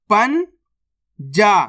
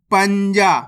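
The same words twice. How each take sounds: First: पन जा as two parts, पन rising, long pause, then जा; split into syllables. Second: Said in the usual way. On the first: Shown as a demonstration. Teacher breaking a word down for learners, split into syllables. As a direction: sound out पन and जा separately. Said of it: "एक बार फिर से देखिए". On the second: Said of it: "तो मिलके बन जाएगा".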